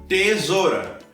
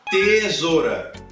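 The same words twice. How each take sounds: No difference in how they are said.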